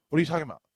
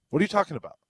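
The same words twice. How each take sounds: First: Irritated question. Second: High, loud, furious yell; angry shout. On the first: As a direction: pitch raised, voice pushed louder. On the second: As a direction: bark it at the bartender. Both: Retold or imitated. Retold angry bar customer.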